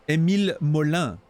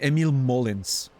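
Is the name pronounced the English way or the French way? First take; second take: French; English. First: The name is pronounced the French way. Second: The name is pronounced the English way. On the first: The speaker calls it right. "There's an accent on the E. It's clearly a French name" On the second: The speaker calls it wrong. "What do you mean"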